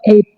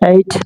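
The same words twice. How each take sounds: First: The t sound is unaspirated. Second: The t sound is aspirated. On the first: The speaker calls it wrong. "ট sound, is not ট sound" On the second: The speaker calls it right. "It will be ঠ"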